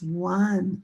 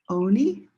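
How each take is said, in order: First: The word starts with an 'uh' vowel sound. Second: The word starts with an 'oh' vowel sound. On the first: The speaker calls it right. "it's one. Ah, ah, ah, one" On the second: The speaker calls it wrong. "So does it make the sound O? ... Is that word oni? No"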